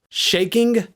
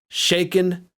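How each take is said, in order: First: The word ends with a full ng sound. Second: The word ends with a plain n sound. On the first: "the king and son don't rhyme with each other" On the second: "if you shave the G off of shaking, it will now rhyme due to both words ending with an N sound"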